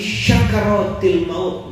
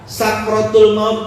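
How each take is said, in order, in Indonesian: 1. Kata pertama diawali dengan bunyi 'sh'. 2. Kata pertama diawali dengan bunyi 's' biasa. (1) "yang sin berubah jadi shin ... Salah betul. Bukan shin itu" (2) "pakai sin biasa"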